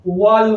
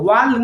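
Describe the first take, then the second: First: The vowel is a rounded 'aw'. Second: The vowel is an open, unrounded 'ah'. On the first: The speaker calls it right. "वॉल होता है" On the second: The speaker calls it wrong. "वाल नहीं होता है"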